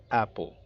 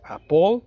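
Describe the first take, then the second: First: "apple" as AP-pol with falling tune; correct first-syllable stress. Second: "apple" pushed onto the last syllable, a-POL, rising and loud; mispronounced "apple" with a rising POL; wrong stress. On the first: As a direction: stress AP in "apple" and drop the end. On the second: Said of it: "No es". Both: Shown as a demonstration.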